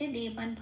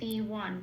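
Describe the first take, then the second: First: The middle consonant is pronounced as b. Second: The middle consonant is pronounced as w. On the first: This is the regional reading of the word. "এইটুকুনি বাংলায় বললাম" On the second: This is the classical reading of the word. "তাহলে উচ্চারণটা হবে দেওয়ান"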